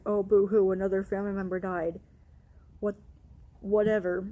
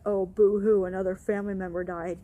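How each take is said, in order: First: Loud sneering boo-hoo, dismissive whatever; mocking boo-hoo. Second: Loud sneering boo-hoo, then a quick rattle; mock his fake pity, loud on boo-hoo. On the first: Devin mocking her grief, loud sarcastic sneer. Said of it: "Devin's like". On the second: Coworker mocking her grief, loud sarcastic sneer. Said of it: "who was like".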